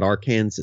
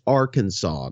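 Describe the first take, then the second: First: "Arkansas" said like ar-KANSAS, ending sounded; mispronounced Arkansas. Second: "Arkansas" ending in SAW, final s silent; correct pronunciation of Arkansas. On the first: Co-host quoting the host's mistake, mispronounced as ar-KAN-zas. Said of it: "it's Arkansas, not Arkansas". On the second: Co-host correcting the host's state name, pointedly pronounced. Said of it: "got to be a bro here for you". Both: Shown as a demonstration.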